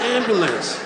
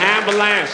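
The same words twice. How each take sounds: First: It is said with a standard pronunciation. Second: It is said with a rapper-style pronunciation. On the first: The speaker calls it right. "No, it's ambulance" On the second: The speaker calls it wrong. "That's how rappers say it"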